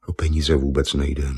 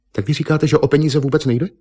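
First: Lower, matter-of-fact man; klidné tvrzení. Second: High, incredulous echo question; nechápavá otázka. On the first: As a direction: state it calmly, pitched down. Malíř to klidně popírá. (klidný hlubší mužský hlas) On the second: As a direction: echo him in disbelief, voice rising high. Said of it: "se zatvářila nechápavě". (nechápavě, vysokým tázavým hlasem) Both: A narrator's reading.

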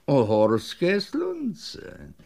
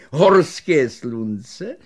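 First: Repeated offer. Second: Very slow, louder rising offer; hawking offer. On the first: Shopkeeper repeating the sunlamp offer, slow falling. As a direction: let it settle as a confirmation. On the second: Shopkeeper offering the sunlamp, slow rising call. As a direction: draw out the offer like a salesman. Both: Acted.

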